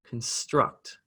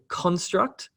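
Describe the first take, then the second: First: The stress is on the second syllable. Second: The stress is on the first syllable. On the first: It is the verb, meaning to build something. "an apostrophe is placed before the stressed syllable" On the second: It is the noun. "that syllable, con, is the one that's emphasized"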